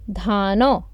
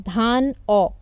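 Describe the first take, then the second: First: The n runs on into the second syllable. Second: The n stays with the first syllable. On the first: The speaker calls it right. "When you combine syllable one and syllable two" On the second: The speaker calls it wrong. "if you wouldn't have known the rule, you would have pronounced it as"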